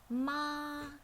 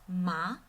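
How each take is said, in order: First: The pitch stays flat at a high level. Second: The pitch rises from middle to high. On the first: "flat and high" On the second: "goes out from middle pitch to high pitch"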